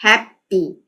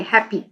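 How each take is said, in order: First: "happy" split into hap and py; syllable by syllable. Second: Said in the usual way. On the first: Shown as a demonstration. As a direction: pause between the two syllables of "happy". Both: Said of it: "happy में टू syllable आ रहे हैं".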